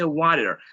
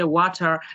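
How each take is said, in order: First: It is said in an American accent. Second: It is said in a British accent. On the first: "in American they say" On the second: "in British they say"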